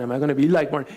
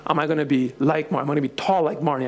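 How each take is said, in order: First: Said in the usual way. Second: Put-on quick, eager child questions; child wondering. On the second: Daughter asking about Marnie, quick and eager. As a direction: rush it out with hope.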